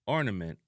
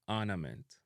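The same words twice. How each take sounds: First: ORNAMENT with "or" at the start; English-style "or-na-ment"; English pronunciation. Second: ORNAMENT as "aanament", no R; Jamaican pronunciation. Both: Shown as a demonstration. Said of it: "extended R sound".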